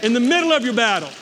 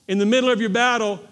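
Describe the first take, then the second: First: Fast and loud, punching "middle"; preached louder again. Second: Louder, driving "middle" home; preached louder. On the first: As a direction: drive "middle" home, quicker. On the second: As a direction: hammer the word "middle" with force. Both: Shown as a demonstration. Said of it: "I'm gonna say it again".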